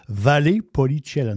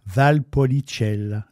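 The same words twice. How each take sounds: First: "Valle Policella" with Valle in two syllables, val-lé; mispronounced name. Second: "Val Policella" slowly, Val as one syllable; corrected pronunciation. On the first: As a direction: say "Valle Policella" with an extra é after Vall. (« Valle Policella » prononcé avec « val-lé » en deux syllabes) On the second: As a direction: say "Val Policella" measured, with no é after Val. (« Val Policella » posé, « Val » en une seule syllabe) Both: Shown as a demonstration.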